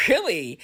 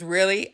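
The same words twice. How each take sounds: First: "Really" falling at the end, as an answer; affirming fall. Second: "Really?" with a rising, questioning end; questioning rise. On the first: Mom assuring her believing son, affirming fall. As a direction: confirm "Really" with the pitch coming down. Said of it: "I said". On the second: Son asking his mom in doubt, questioning rise. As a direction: ask "Really?" with the pitch lifting at the end. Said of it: "he says". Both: Retold or imitated.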